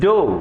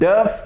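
First: The word is said with an 'oh' vowel. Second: The word is said with an 'uh' vowel. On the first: The speaker calls it right. "This is ഡോ" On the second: The speaker calls it wrong. "നമുക്കൊരു trend ഉണ്ടാവും... ഡഫ് എന്ന് പറയാൻ"

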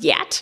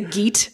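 First: The word begins with a Y sound. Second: The word begins with a hard G sound. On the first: The speaker calls it right. "But it's actually pronounced Yat" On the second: The speaker calls it wrong. "people say he's a Geat. Because it's spelled G-E-A-T"

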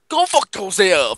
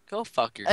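First: It is said in a put-on imitating voice. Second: It is said in the speaker's normal voice.

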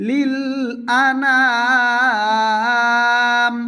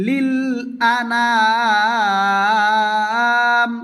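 No difference in how they are said.

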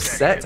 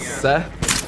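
First: The name ends with a hard 't' sound. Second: The name ends with a soft 'th' sound. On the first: "Or set? I think it's set" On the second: "Good old Seth"

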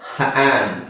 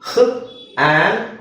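First: The h and the vowel are blended together. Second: The h and the vowel are said apart.

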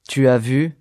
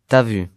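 First: Every syllable is pronounced in full. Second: Sounds are dropped and run together.

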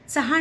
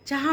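First: The first consonant sounds like 'ts'. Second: The first consonant sounds like 'ch'. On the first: The speaker calls it wrong. "चहा नाही म्हणत" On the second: The speaker calls it right. "चहा म्हणतो"

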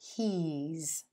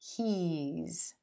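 First: The words are merged into one contracted syllable. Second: The words are merged into one contracted syllable.

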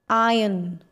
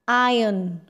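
The two takes are said the same way.

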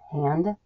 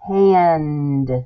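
First: The final D sound is left off. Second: The final D sound is clearly pronounced.

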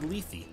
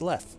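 First: The name is said as two syllables. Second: The name is said as one syllable. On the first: "It is apparently Lethe" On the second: "one syllable Leth"

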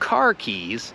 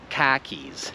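First: The r is pronounced in standard American. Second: The r is dropped in a Boston accent.

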